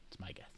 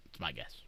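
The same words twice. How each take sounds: First: A playful hushed repeat; whispered aside. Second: Said in the usual way. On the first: Pretend. Streamer whispering his guess to chat. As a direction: whisper it again, secretive.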